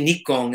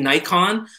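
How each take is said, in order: First: It is said the usual European way. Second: It is said the usual American way. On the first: "most people in Australia or the U K or most of Europe will say" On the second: "it's mostly United States that say Nikon"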